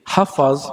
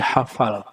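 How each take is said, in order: First: The word ends with a z sound. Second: The word ends with an l sound. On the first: This is the original borrowed form. The speaker calls it right. "Z menjadi L" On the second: This is the locally adapted form. The speaker calls it wrong. "Z menjadi L"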